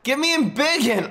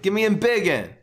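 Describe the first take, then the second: First: Higher, louder desperate yell. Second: Louder demand for the card; demanding shout. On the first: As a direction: yell for it at the top of your voice. Escalated plea for the card. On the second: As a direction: call out for the card. Pleading for a card draw. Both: Real, not acted.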